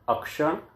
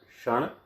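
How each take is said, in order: First: The word starts with an added short vowel. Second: The word starts directly with the consonant cluster. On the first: The speaker calls it wrong. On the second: The speaker calls it right.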